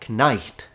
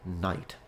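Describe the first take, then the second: First: A K sound is heard before the N. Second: The word starts directly with the N sound. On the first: This is an older form of the word. "then it became knight" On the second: This is the modern form of the word. "finally the K was dropped"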